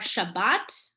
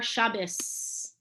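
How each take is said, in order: First: The word ends with a T sound. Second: The word ends with an S sound. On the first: "the T with a dot is a T" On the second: "without the dot is an S sound"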